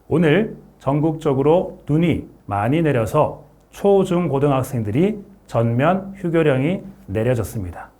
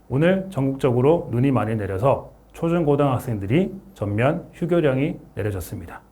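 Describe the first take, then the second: First: The consonants are emphasized and each word is crisp. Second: The consonants are loose and the words slur together. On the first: The speaker calls it right. "자음을 강조해서 제가 한번 읽어보겠습니다" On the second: The speaker calls it wrong. "발음을 신경 쓰지 않고 그냥 읽어보겠습니다"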